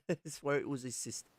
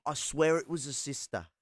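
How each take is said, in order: First: Breaking into a laugh mid-line; chuckling through the owl voice; laughing mock Aussie owl. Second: Mock Aussie owl. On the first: The owl retelling the plane scene, laughing. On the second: Owl repeats punchline.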